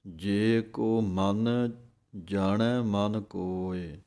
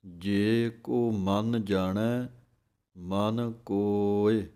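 First: ਜੇ ਕੋ ਮਨ read slowly with the break misplaced after ਮਨ; ਗਲਤ ਵਿਸਰਾਮ; common wrong reading. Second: Slow, careful phrasing with the break on ਜਾਣੈ; ਸਹੀ ਵਿਸਰਾਮ ਜਾਣੈ ਤੇ; correct reading. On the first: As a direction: demonstrate the mistaken phrasing, pause before ਜਾਣੈ. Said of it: "ਕਈ ਇਸ ਤਰ੍ਹਾਂ ਪੜ੍ਹ ਜਾਂਦੇ ਹਨ". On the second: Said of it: "ਇਹ ਢੰਗ ਹੈ ਬੋਲਣ ਦਾ।". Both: Shown as a demonstration.

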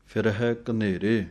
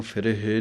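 First: ਫਿਰਹਿ with a half-dulavan ending, between ਇ and ਐ; correct reading. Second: ਫਿਰਹੇ with a full ਏ ending; wrong reading demo. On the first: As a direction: read ਫਿਰਹਿ with a short half ਐ sound. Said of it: "ਹਾਹੇ ਸਿਹਾਰੀ ਦੀ ਆਵਾਜ਼ ਅੱਧੀਆਂ ਦਲਾਈਆਂ ਦੀ". (ਫਿਰਹਿ, ਅੱਧੀਆਂ ਦੁਲਾਵਾਂ ਦੀ ਆਵਾਜ਼) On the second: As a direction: show the mistake ਫਿਰਹੇ, ending long ਏ. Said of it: "ਇਹਨੂੰ ਫਿਰਹੇ ਨਹੀਂ ਕਹਿ ਦੇਣਾ". (ਗ਼ਲਤ ਉਚਾਰਣ ਫਿਰਹੇ) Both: Shown as a demonstration.

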